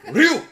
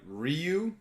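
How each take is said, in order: First: The name is said as one syllable. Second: The name is said as two syllables. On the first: The speaker calls it right. "His name technically is one syllable" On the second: The speaker calls it wrong. "I'm sorry, I said that wrong"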